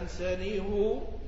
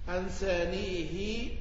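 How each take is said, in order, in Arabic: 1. على الهاء ضمة. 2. على الهاء كسرة. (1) "يضم الهاء" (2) "يكسرونها"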